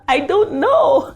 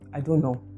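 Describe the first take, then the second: First: It sounds unserious and not sincere. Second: It sounds flat with no emotion. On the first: The speaker does not seem to mean it. "That sounds like I'm just unserious" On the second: The speaker inspires no confidence. "It sounds flat, it doesn't convey any emotion"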